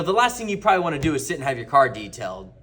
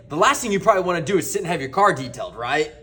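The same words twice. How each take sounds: First: Said in the usual way. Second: Brisk statement, then RIGHT tacked on as a question; tag question RIGHT. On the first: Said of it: "if I just said". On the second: Shown as a demonstration. Salesman nudging a customer to agree, ending on a questioning RIGHT. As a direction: run through quickly and seek a yes with RIGHT. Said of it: "But if I say".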